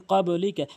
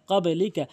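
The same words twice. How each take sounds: The two takes are said the same way.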